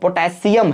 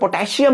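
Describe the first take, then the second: First: It is pronounced the standard English way. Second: It is pronounced the common Indian way. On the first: The speaker calls it right. "पोटेशियम है" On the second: The speaker calls it wrong. "जैसे हम बोलते हैं पोटेशियम but actual में पोटेशियम नहीं हो"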